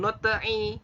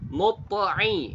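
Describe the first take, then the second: First: The t is thin, vowel leaning toward e. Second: The t is thick, vowel leaning toward o. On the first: The speaker calls it wrong. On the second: The speaker calls it right.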